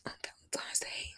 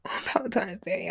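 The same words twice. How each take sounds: First: Whispered. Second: Said in the usual way. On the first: Shown as a demonstration.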